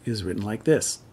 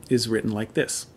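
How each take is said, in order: Both takes have the same delivery.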